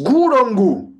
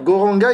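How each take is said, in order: First: Bengali pronunciation ending in an o-like sound. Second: Standard pronunciation ending in an a sound. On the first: "ils disent Gourangu" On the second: "au lieu de dire Goranga"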